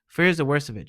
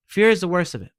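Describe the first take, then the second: First: Said in the usual way. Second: Fear hit hard and loud; emphatic, louder. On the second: Real, not acted. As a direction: punch the word Fear, higher and louder. Repeats the line for emphasis.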